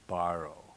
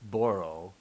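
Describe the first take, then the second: First: The first vowel sounds like 'ah'. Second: The first vowel sounds like 'oh'.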